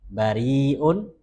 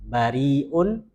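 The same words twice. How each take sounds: The two takes are said the same way.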